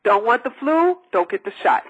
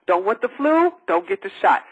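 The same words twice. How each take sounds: The two takes are said the same way.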